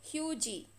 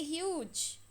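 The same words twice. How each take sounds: First: "hugy" with the silent E sounded as a final ee; a deliberate mistake, "hugy" with an extra syllable; wrong pronunciation. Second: "huge" as one syllable with a silent E; the right way, "huge" with no extra sound at the end; correct pronunciation. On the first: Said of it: "We don't say hugy". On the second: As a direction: clean single-syllable "huge", a little softer. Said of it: "We just say huge". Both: Shown as a demonstration.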